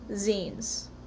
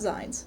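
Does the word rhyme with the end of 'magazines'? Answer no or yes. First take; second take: yes; no. First: It rhymes with the end of magazines. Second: It does not rhyme with magazines. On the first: The speaker calls it right. "It's pronounced zines" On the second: The speaker calls it wrong. "not zines"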